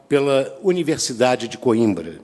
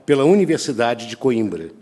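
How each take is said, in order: Both takes have the same delivery.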